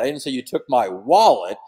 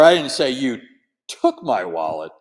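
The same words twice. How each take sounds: First: The stress is on the word wallet. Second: The stress is on the word took.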